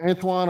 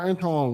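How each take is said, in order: First: "Antoine" with a w glide, ANT-WAHN; alternative pronunciation. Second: "Antoine" without the w, ANT-AHN; alternative pronunciation. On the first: Asking a viewer about the name, "Antoine" said ant-WAHN. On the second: Offering a viewer another option, "Antoine" said ant-AHN. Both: Shown as a demonstration. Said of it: "How do you pronounce your name?".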